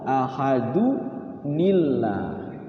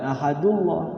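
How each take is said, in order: First: The words join with an added ni syllable. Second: The words join with no added ni syllable. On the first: The speaker calls it right. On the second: The speaker calls it wrong. "jangan ahadullah"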